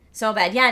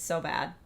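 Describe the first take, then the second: First: So bad said louder and a bit higher; loud, amused So bad; emphatic. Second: Said in the usual way. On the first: Real, not acted. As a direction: punch out So bad with gusto.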